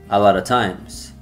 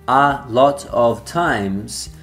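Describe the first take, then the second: First: The words run together with reduced sounds. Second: Each word is said fully and separately. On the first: "is actually pronounced" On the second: "the phrase"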